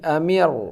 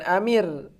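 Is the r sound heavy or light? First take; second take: heavy; light. First: The r sound is heavy and thick. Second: The r sound is light and thin. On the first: The speaker calls it right. "akan tapi amir" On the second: The speaker calls it wrong. "bukan amir"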